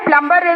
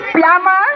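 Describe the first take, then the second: First: The b sound is pronounced after the m. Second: The b sound is silent after the m. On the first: The speaker calls it wrong. "प्लम्बर is the wrong pronunciation" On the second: The speaker calls it right. "It is plumber and B is silent"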